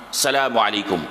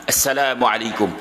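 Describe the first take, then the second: No difference in how they are said.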